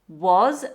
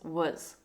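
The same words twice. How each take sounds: First: The word has a full, strong vowel. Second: The word has a weak schwa vowel.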